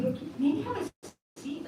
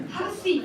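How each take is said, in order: First: Soft, slow and kind; gentle suggestion. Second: "have a seat" pitched higher and pressed firmly; firm insistence. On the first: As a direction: ease him into sitting down. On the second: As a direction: insist on "seat" with a rising push. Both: Retold or imitated. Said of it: "I told him, I said".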